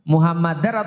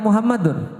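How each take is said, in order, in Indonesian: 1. Vokal sebelum r terakhir adalah a. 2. Vokal sebelum r terakhir adalah u. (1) "bacanya A atau U" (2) "bacanya A atau U"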